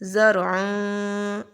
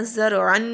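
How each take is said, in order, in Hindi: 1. आख़िरी 'न' नाक वाली आवाज़ में छिप जाता है। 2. आख़िरी 'न' पूरा और साफ़ बोला जाता है। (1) "आवाज़ को हम लोगों ने छुपा देना है। ज़रअन इस तरह से पढ़ेंगे" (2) "ज़रअन नहीं पढ़ना"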